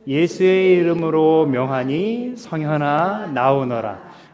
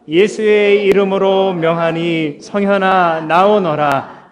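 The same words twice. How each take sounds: First: It is said softly and weakly. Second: It is said in a loud voice.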